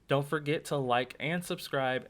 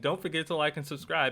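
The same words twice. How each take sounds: First: It is said at a slowed-down pace. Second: It is said at a fast pace. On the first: The speaker calls it wrong. "I was trying to slow it down" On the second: The speaker calls it right. "So I'm gonna say it fast"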